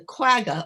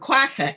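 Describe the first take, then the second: First: The word is said with an anglicized pronunciation. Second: The word is said with its original pronunciation. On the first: "it's easier for me to pronounce it as quagga" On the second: "as it should be"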